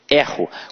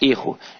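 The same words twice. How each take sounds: First: The stressed e vowel sounds open. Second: The stressed e vowel sounds closed. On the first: It is the verb form meaning I make a mistake. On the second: It is the noun meaning a mistake.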